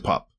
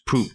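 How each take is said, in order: First: The vowel is short, like in pup. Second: The vowel is a long oo sound. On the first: "to pup" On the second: "change poop"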